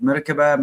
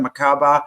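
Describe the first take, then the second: First: "Merkaba" in four syllables, like MUR-ka-ba with an extra short vowel; alternative pronunciation. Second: "Merkaba" as muh-KAH-buh, three syllables; alternative pronunciation. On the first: Co-host offers another way people pronounce it, "Merkaba" with unstressed middle. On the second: Co-host offers her own version of the word, "Merkaba" said muh-KAH-buh. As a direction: stress the long KAH in "Merkaba". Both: Shown as a demonstration. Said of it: "however people pronounce it".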